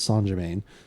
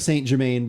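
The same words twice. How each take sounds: First: The name is pronounced differently from how it looks. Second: The name is pronounced just as it looks. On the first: The speaker calls it right. "It's Saint Germain" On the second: The speaker calls it wrong. "It looks like Saint Germain, but I learned that you're not supposed to say it that way"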